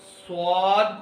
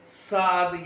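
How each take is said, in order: First: स्वाद with a full w glide after s, swaad; स्वाद as swaad, never saad; correct swad. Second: साद with no w sound, plain saad; the mistaken साद without a glide; साद said flat as saad; wrong saad. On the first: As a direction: say स्वाद rounding into the w. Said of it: "जबकि साद ... से वाला लफ्ज नहीं निकालेंगे". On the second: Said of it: "से वाला लफ्ज नहीं निकालेंगे". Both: Shown as a demonstration.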